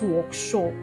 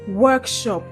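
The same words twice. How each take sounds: First: The stress is on the second syllable. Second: The stress is on the first syllable. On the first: The speaker calls it wrong. "and not workshop" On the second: The speaker calls it right. "the stress is often placed on the first syllable"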